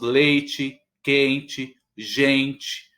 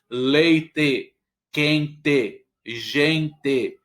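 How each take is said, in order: First: The final vowel sounds like I, São Paulo style. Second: The final vowel is a strong E, Rio Grande do Sul style.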